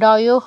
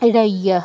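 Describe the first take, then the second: First: The ending has an 'o' vowel sound. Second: The ending has a 'ya' glide sound. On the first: The speaker calls it wrong. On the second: The speaker calls it right.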